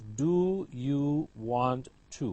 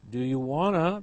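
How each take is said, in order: First: The last words are said as two separate words. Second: The last words blend into one short word.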